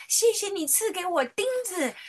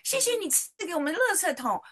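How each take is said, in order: First: Put-on 谢谢 sung out high in a childlike thank-you, 谢 stressed with a falling tune; a little girl thanking Jesus for nails; child praying. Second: Put-on 谢谢 high and childlike, 垃 stressed with a falling tune; a little girl thanking Jesus for the trash can; child praying. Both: Little daughter thanking Jesus in Sunday school, high childlike voice. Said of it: "他就祷告说".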